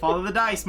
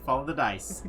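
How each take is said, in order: First: "Follow the dice" called out louder and higher like a rallying cry; proclaimed. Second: Said in the usual way. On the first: Shown as a demonstration. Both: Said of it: "Follow the dice, my friends".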